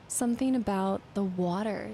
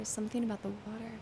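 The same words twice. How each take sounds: First: Said in the usual way. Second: Softer, fast muttered repeat; quiet fast repeat. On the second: Real, not acted. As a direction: mumble it back to yourself quickly. Repeats clue under breath.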